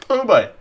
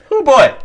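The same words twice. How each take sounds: First: Said in the usual way. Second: Excited squeal. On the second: Real, not acted. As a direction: squeal it with delight.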